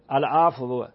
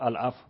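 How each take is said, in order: First: The final w is added as a separate syllable. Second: The final w is said softly, barely audible. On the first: The speaker calls it wrong. "اینجوری که نمیگید که بهت میخندن اصلا" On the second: The speaker calls it right. "واو داری میگی، شنیده نمیشه"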